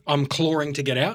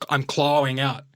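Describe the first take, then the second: First: CLAWING said as "claw-ring"; CLAWING with an R linking the syllables; intrusive R. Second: CLAWING said as "claw-wing"; CLAWING with a W glide, no R. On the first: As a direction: slip an R into the middle of CLAWING. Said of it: "We say clawing". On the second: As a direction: glide from claw to ing in CLAWING without any R. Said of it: "That's how he said it". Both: Shown as a demonstration.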